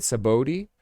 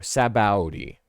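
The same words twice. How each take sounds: First: Sabaody as sa-BOH-dee, rising at the end; questioning pronunciation. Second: Sabaody as sa-BOW-dee, falling at the end; alternative pronunciation. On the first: Host asking how to say it, trying sa-BOH-dee. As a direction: ask it with a long "oh" in Sabaody. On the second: Host weighing another way, settling on sa-BOW-dee. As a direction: offer Sabaody with "bow" as in take a bow. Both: Shown as a demonstration. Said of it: "Is that how you say it?".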